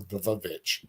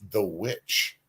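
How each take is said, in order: First: The last word has two syllables, starting with v. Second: The last word has one syllable, starting with w.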